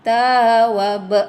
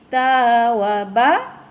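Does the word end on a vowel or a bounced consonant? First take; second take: consonant; vowel. First: The word ends on a bounced final consonant. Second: The word ends on an open final vowel. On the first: The reader stops at this word. "berhentinya ada qalqalah kubra" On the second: The reading continues without stopping. "mad asli"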